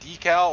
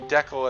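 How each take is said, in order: First: The first syllable sounds like 'dee'. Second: The first syllable sounds like 'deck'. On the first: "like with two e's" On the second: "like deck and al"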